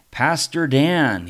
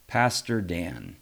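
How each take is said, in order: First: Loud, slow, firm calling of a name. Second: Lower, slow, calm calling of a name; calm address. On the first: Luther firmly calls the pastor by name. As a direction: plant each word firmly, slow and loud. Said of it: "he said again firmly". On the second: Luther calmly addresses the shaken pastor. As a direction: settle the voice and say it slowly. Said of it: "he said to me calmly". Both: A narrator's reading.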